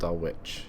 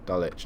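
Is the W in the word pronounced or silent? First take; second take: pronounced; silent. First: The W sound is pronounced. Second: The W sound is left out. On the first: The speaker calls it wrong. "not Dulwich" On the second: The speaker calls it right. "Silent W"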